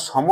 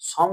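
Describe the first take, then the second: First: সম said as "shomo", with vowel after m; সম in two syllables, "sho-mo"; open final vowel. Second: সম said as "shom", no final vowel; সম in one closed syllable, "shom"; hasanta ending. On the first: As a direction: add an o at the end of সম. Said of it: "সম উচ্চারণ করছি না". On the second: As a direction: stop সম on the m. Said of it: "সম উচ্চারণ করছি বলে আমরা হসন্ত দিলাম". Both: Shown as a demonstration.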